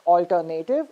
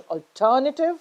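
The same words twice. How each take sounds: First: "alternative" as al-ter-NAY-tiv; wrong stress. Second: "alternative" as al-TER-nuh-tiv; correct stress. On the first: Teacher reminding students of the mistake, "alternative" with stressed NAY. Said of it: "it's not pronounced as". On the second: Teacher reminding students of the correction, "alternative" stressed on TER. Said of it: "it's pronounced as". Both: Shown as a demonstration.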